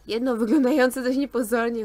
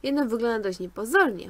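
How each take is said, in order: First: "wyglądające" read louder, with clear stress; corrected reread. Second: Said in the usual way. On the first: Real, not acted. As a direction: rereads "wyglądające" firmly after the slip. (wyraźnie akcentowane "wyglądające", głośniej) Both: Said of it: "A, wejście".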